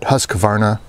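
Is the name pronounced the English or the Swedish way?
English. It is pronounced with an English-style accent. The speaker calls it wrong. "kind of the Anglo pronunciation of the word"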